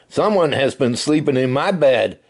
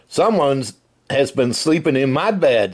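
First: It is said in a medium-sized voice. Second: It is said in a big, deep voice. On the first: The middle-sized bear is speaking. "said Mama Bear in her middle-sized voice" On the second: The largest bear is speaking. "said Papa Bear in his great big voice"

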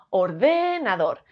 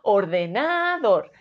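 First: The stress is on the second syllable. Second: The stress is on the third syllable. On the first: "Si fuese de" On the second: "Si fuese na"

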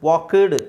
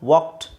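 First: The ending is said as an extra syllable. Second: The word ends in a short t sound. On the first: The speaker calls it wrong. "ಅಂತ ಹೇಳಬಾರ್ದು" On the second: The speaker calls it right. "ಕೆ ಟಿ pronounce ಬರಬೇಕು"

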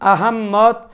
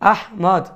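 First: The name has a doubled 'mm' with an extra syllable. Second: The name ends with a rounded 'mod' sound. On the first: "আহম্মদ বা আহম্মদ উচ্চারণ করার কোনো সুযোগ নেই" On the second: "Bangla ভাষা হিসেবে সর্বোচ্চ আহমদ এটা বলা যেতে পারে"

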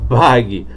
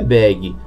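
First: It is pronounced as a Portuguese nickname. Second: It is pronounced like the English word bag. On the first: It refers to the creator's nickname. The speaker calls it right. "é bag, tá bom? Isso porque é o apelido do nosso querido Wagner" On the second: It refers to the English word for a backpack. The speaker calls it wrong. "a pronúncia correta não é bag"

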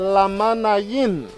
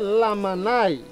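First: The name ends with an extra 'yin' syllable. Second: The name ends with a short 'ai' sound. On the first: This is the original Maya name. The speaker calls it right. "but the correct pronunciation" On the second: This is how the Spanish newcomers said it. The speaker calls it wrong. "So they say Lamanai"

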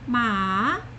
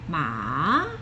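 First: The pitch rises from middle to high. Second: The pitch dips low and then rises. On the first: "Second tone, ma, rising" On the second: "Third tone, down a bit and then rise"

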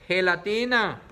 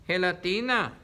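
Both takes have the same delivery.

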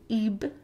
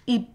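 First: The final b sound is released and extended. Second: The final b sound is cut off unreleased. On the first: The speaker calls it wrong. "you don't extend it to ib" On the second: The speaker calls it right. "you stop right before making b sound. So it's ib"

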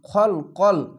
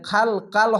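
First: The vowels sound thick and rounded, like 'o'. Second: The vowels sound thin and open, like 'a'. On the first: The speaker calls it right. "খলাম জবর খল" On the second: The speaker calls it wrong. "এখানে খাল কাল হবে না"

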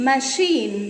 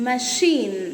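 Both takes have the same delivery.

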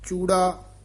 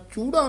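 First: The word is said softly and lightly. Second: The word is said heavily and forcefully. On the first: The speaker calls it right. "ਇਹ ਚੂੜਾ ਪੋਲਾ ਹੀ ਬੋਲਣਾ" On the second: The speaker calls it wrong. "ਚੂੜਾ ਨਹੀਂ ਕਹਿ ਦੇਣਾ ਭਾਰਾ"

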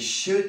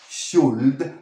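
First: The L sound is silent. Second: The L sound is pronounced. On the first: The speaker calls it right. "la L no se pronuncia" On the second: The speaker calls it wrong. "no es should"

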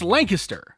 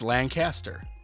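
First: It is said the way people say it locally. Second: It is said the way the Buffalo-area town says it. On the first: This names the local town. "but here it's Lancaster" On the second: This names the town near Buffalo. "a town right outside Buffalo where I'm from spelled the exact same way. That's Lancaster"

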